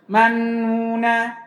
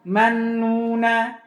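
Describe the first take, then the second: Both takes have the same delivery.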